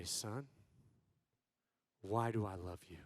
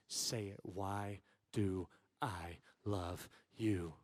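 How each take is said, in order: First: Very low, soft question; low, restrained parental voice; hushed stern father. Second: Low, slow, word-by-word demand; soft, deliberately spaced-out parental demand; unloving stern tone. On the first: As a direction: ask your son quietly and gravely. Father sternly questions his son. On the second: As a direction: press your son, quiet and menacing. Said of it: "not a very loving tone". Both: Retold or imitated.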